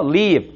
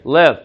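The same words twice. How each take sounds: First: "Leave" with a long, tense "ee". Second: "Live" short, with a relaxed "eh"-like i; short lax i. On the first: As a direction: spread the lips for the ee in "Leave". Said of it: "한 번만 더 끌어주시면". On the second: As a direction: say "Live" like "lev", lips unspread. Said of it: "그 다음 요거는 live". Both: Shown as a demonstration.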